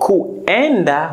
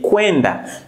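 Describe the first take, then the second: First: The u is said as its own vowel. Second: The u becomes a w sound before e. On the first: "So kuenda" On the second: "we normally say kwenda"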